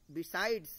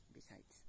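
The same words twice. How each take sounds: First: Loud. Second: Whispered. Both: Shown as a demonstration. Teacher contrasting besides and beside.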